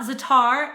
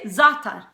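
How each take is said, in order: First: The stress is on the second syllable. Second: The stress is on the first syllable. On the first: The speaker calls it wrong. "pronounce the latter half of the word" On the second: The speaker calls it right. "put the emphasis on the first syllable rather than on the second syllable"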